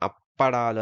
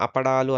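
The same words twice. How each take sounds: First: అప్పడాలు with a pressed double ప్ప; ఒత్తి పలకడం. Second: అపడాలు with a short single ప; ఒత్తు లేకుండా. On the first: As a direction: hold the lips closed on the ప్ప of అప్పడాలు. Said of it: "అప్పడాలు అని ఒత్తి పలికాం". (అప్పడాలులో ప్పను ఒత్తి పలకడం) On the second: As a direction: say అపడాలు lightly, no doubling of ప. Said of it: "ముందేమో అపడాలు అన్నారు". (అపడాలులో పను ఒత్తకుండా పలకడం) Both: Shown as a demonstration.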